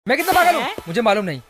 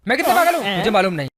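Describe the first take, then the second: No difference in how they are said.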